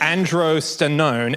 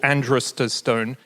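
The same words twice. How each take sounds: First: The word is pronounced carefully and clearly. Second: The word is pronounced in a garbled way. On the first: The speaker calls it right. "let's do the right version" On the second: The speaker calls it wrong. "that's not how you say it"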